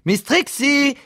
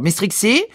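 First: Very high, stretched call; piercingly high summons; insistent calling out. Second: High, questioning call; first summons, pitched up. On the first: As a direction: call her name insistently at the top of your range. Boss calls again, more insistently. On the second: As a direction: call her name to get attention. Boss calls his dozing employee. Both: Acted.

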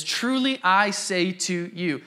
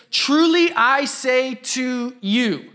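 First: Said in the usual way. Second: Slow, solemn declaration of "Truly"; quoting Jesus. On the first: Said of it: "Jesus is like". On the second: Retold or imitated. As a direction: weigh each word like scripture. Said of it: "He says".

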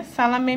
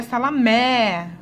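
First: Salamé said as salamê with a closed final e; closed vowel. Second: Salamé with an open final é, slow and louder; open vowel. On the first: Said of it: "perceber um pouquinho do acento circunflexo". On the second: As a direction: open the last e of salamé wide. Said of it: "trocar o acento". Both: Shown as a demonstration.

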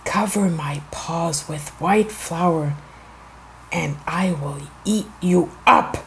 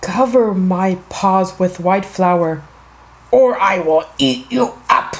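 First: Low, soft wolf threat; wicked wolf. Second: Wicked wolf, firmer. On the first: Wicked wolf to the baker, low quiet menace. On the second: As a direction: repeat the threat firmly, building to a growly finish. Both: A narrator's reading. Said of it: "wicked wolf went to the baker and said".

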